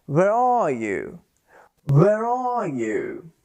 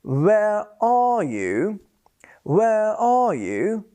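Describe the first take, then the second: First: Slow Where are you with the R of are joined to you; linking R. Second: Slow Where are you with are cut off, no R; unlinked R. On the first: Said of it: "I will link it by pronouncing the R". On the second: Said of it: "instead of saying". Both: Shown as a demonstration.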